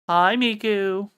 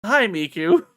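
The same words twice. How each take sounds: First: Drawn-out loud greeting. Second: Loud greeting. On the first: Greeting the Cheshire Cat. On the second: Greeting again. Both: Real, not acted.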